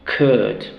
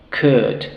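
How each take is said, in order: Both takes have the same delivery.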